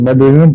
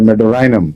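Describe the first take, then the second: First: The third vowel is a short 'ee' sound. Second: The third vowel is a long 'eye' sound. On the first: This is how people usually say it. "आमतौर पर मेडोरिनम पढ़ते हैं लोग" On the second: This is a newer, British-style reading. "आपने नया तरफ बताया"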